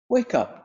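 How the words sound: It is said in a gentle, kind tone.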